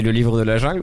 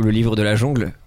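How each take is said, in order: First: Said in the usual way. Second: "jongle" said with an "on" vowel; jongle pun. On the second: Shown as a demonstration. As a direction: say "jongle" in place of jungle. Jeu de mots jungle contre jongle. (« jongle » prononcé avec le son « on »)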